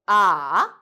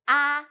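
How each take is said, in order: First: The pitch dips low and then rises. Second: The pitch stays high and level. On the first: The speaker is confused and doubtful. "and then third tone" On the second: The speaker is suddenly surprised or realizes something. "So we do first one"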